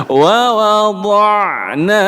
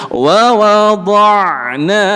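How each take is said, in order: No difference in how they are said.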